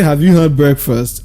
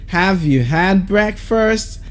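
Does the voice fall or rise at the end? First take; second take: fall; rise. First: The voice falls at the end. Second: The voice rises at the end. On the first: The speaker calls it wrong. "I didn't say" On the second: The speaker calls it right. "The tone keeps going up because it is the rising tone"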